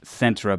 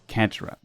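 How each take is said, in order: First: The name begins with a soft S sound. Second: The name begins with a hard K sound. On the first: The speaker calls it right. "but I know it's pronounced Cetra by now" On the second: The speaker calls it wrong. "So in the video I always say Ketra"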